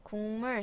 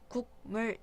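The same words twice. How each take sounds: First: The first syllable ends with an ng sound. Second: The first syllable ends with a k sound. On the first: The speaker calls it right. "비음인 이응으로 만들어 놓은 비음화" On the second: The speaker calls it wrong. "이렇게 발음하지 않죠"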